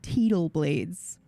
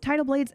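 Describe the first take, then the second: First: The first word starts with an 'ee' vowel. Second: The first word starts with an 'eye' vowel.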